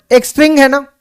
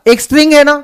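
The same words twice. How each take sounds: The two takes are said the same way.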